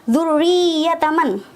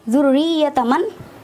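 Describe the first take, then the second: Both takes have the same delivery.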